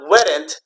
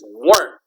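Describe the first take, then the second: First: The word is said with two syllables. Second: The word is said as one syllable. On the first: The speaker calls it wrong. "It's not weren't" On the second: The speaker calls it right. "it's weren't... remember that e is silent"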